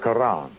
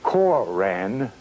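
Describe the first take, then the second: First: The word has an Arabic-style pronunciation. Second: The word has an English-style pronunciation. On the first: It refers to the Islamic scripture of the East. "Notice how I pronounce that with the flavor of an Arabic intent" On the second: It refers to the Moorish Science Temple's text. "Notice how I pronounce the Koran of the Moorish Science Temple"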